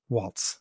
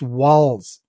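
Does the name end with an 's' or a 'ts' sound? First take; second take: ts; s. First: The name ends with a ts sound. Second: The name ends with a plain s sound. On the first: The speaker calls it wrong. "It's not Waltz" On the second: The speaker calls it right. "It's Walls. It's like the thing you walk into"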